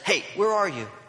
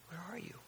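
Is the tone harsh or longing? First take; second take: harsh; longing. First: It sounds harsh and demanding. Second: It sounds gentle and longing.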